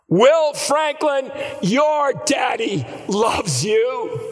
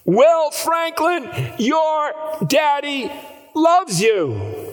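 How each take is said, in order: First: Crying out. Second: Very high, slow, loud cry; crying out even higher. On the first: Father calling to his son across the driveway, crying out. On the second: Father calling again to his son, crying out even higher. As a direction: cry it out again, straining harder. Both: Retold or imitated. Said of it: "he cried out".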